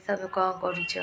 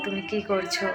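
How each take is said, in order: First: The question said the Odia way; a quick Odia-flavoured sample line; Odia dialect. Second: The same question in clean standard Bengali; proper textbook Bengali, neatly said. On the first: Showing viewers her Odia way of asking, Odia accent. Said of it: "যেরকম উড়িয়া ভাষায় বলবে". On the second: Contrasting with the Odia line, standard Bengali accent. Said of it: "শুদ্ধ বাংলায় ভাষায় বলো". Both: Shown as a demonstration.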